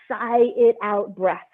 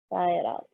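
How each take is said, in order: First: Said in the usual way. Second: Long breathy sigh on the words; dramatic sigh. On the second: Shown as a demonstration.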